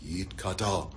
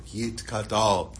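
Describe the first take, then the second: First: Softer, lower echo of the prayer; hushed, low response in Hebrew; repeating the prayer. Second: Reciting Kaddish slowly for another to repeat; very slow, measured Hebrew recitation; word by word prayer. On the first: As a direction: repeat it quietly, as if following someone's lead. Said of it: "Hurley's repeating every word". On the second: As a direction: lead the prayer, drawing out each word. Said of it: "he's going word by word". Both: Retold or imitated.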